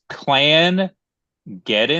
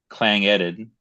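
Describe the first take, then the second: First: The word splits as clan plus geddon. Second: The word splits as clang plus edin. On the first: "It's Clan Geddon is how it's spelled, C L A N" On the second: "it could be Clang, C L A N G"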